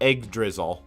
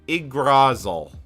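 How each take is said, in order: First: The word is said like 'egg drizzle'. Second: The word ends with a clear 'drasil' sound. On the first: The speaker calls it wrong. "At least I'm not calling it egg, uh, egg drizzle" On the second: The speaker calls it right. "is probably the closest I can actually say it"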